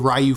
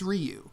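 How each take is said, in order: First: The name is said the anglicized English way. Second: The name is said the Japanese way. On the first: The speaker calls it wrong. "I still slip and say Ryu from Street Fighter" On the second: The speaker calls it right. "if you want to pay proper respect to language, it's it's Ryu"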